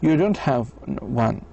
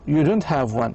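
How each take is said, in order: First: The voice dips low, then rises high. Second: The voice ends without a high rise.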